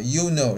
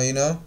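First: Said in the usual way. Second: "you" shrunk to a short "y'" before "know"; reduced you know. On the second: Shown as a demonstration. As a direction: squeeze "you know" into "y'know". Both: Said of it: "这个地方是缩读".

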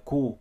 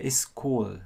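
First: Cool cut short without the final L; wrong cool, no L. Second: It's cool ending on a clear L; right cool with L. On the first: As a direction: say cool ending on the vowel. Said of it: "Không nói cool". (cool sai, không có âm L) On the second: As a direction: finish cool with the tongue up for L. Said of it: "Còn mình nói it's cool". (it's cool đọc đúng, có âm L cuối) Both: Shown as a demonstration.

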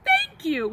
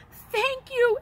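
First: Second thank you settles down; grateful. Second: High, bursting thank you; first thank you pitched high and grateful; grateful cry. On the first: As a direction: echo of thanks, less high. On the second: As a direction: thank him with overflowing relief. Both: A narrator's reading. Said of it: "he cried".

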